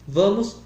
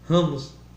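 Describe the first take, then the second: First: The word begins with a v sound. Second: The word begins with a breathy h sound.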